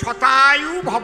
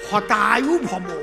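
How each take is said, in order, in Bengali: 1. প্রথম শব্দটি 'sh' ধ্বনি দিয়ে শুরু হয়। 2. প্রথম শব্দটি 'h' ধ্বনি দিয়ে শুরু হয়। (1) "মানে আশীর্বাদ হবে শতায়ু ভব" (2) "স্বছাতা তো উচ্চারণ হয় না"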